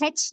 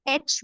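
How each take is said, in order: First: H said as "hetch", starting with a breath of h; mispronounced H. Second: H said as "etch", starting on the vowel; correctly pronounced H. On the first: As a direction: put a wrong h sound before H, "hetch". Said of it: "नहीं बोलेंगे". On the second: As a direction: say H as "aitch" with no h in front. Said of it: "बोलेंगे". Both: Shown as a demonstration.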